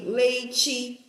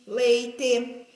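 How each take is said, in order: First: "Leite" ending in a chi sound; "Leite" with the last vowel closed to an i; final E said as I. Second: "leite" ending in a clear te; "leite" with an open e at the end; final E as written. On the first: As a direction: say "Leite" as LEI-chi, the everyday way. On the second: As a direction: say "leite" as LEI-te, just as it is spelt. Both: Shown as a demonstration. Teacher contrasts spellings of final sound.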